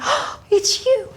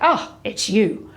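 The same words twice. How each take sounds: First: It is said with an excited gasp. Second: It is said flatly, without enthusiasm.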